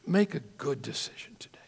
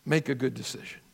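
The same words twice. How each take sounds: First: Hushed whispered repeat, softer. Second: Quiet appeal. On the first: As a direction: whisper it close, urging. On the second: Preacher's quiet closing appeal. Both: Real, not acted.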